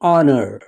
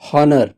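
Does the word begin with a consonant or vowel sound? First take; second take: vowel; consonant. First: The word begins with a vowel sound. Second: The word begins with a consonant sound. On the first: The speaker calls it right. "it is honor ... as these are vowel sounds" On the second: The speaker calls it wrong. "this is not honor"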